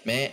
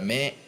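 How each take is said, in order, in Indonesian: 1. Vokalnya terdengar seperti 'e'. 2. Vokalnya terdengar seperti 'e'.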